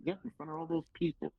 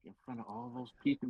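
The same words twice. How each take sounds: First: High-pitched imitation of the booker; booker's confirming reply. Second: Higher-pitched, disbelieving question; startled question. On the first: Booker answering the nervous rookie, high put-on confirmation. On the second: Retold or imitated. Rookie asking the booker about his debut, startled question. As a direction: ask it back as if unsure you heard right.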